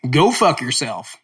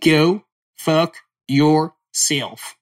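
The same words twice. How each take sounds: First: Said in the usual way. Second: Very slow, drawn-out accent take of Go fuck yourself; put-on accent. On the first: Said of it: "How's that sound?". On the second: Shown as a demonstration. Showing listeners his accent, slow and drawn out. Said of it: "that's my accent".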